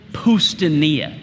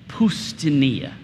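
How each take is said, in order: First: The word is said loudly. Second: The word is said at normal volume.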